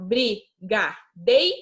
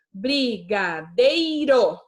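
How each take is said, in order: First: Slow, syllable by syllable, rising at the end; teacher separating syllables for pupils; slow spelling out. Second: Slow, syllable by syllable; teacher spelling out a word for pupils. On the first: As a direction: split the word into its syllables. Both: Shown as a demonstration. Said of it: "a gente separa".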